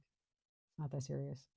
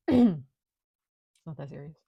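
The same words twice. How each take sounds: First: Slow and softer, brushing it off; quiet, slow shrug of a line; soft, slow dismissal. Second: Much louder, drawn out, stress on not; loud, emphatic, slow reassurance; loud, slow dismissal. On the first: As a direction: say it slow and hushed, no big deal. Showing others to relax. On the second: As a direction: boom it out slowly, not a big deal. Repeating the line after throat clear. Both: Shown as a demonstration.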